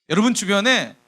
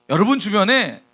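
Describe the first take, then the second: Both takes have the same delivery.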